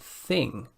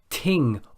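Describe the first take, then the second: First: The word begins with a th sound. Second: The word begins with a t sound. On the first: The speaker calls it right. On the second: The speaker calls it wrong.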